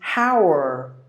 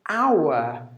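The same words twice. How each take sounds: First: The final R sound is clearly pronounced. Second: The final R sound is left silent. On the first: "In American, it is hour... The R is also pronounced" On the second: "H is silent and the R is silent as well... That's British English"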